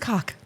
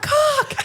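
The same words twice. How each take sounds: First: The word is said at normal volume. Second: The word is screamed loudly.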